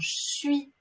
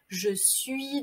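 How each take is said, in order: First: The e of je is dropped. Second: The e of je is fully pronounced.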